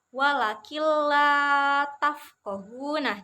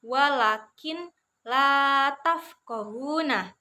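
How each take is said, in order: First: The n sound disappears, merging into the l. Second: The n sound before la is clearly pronounced. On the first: The speaker calls it right. "yang benar seperti ini. nun sukunnya itu hilang suaranya" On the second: The speaker calls it wrong. "cara membacanya itu bukan seperti itu ya"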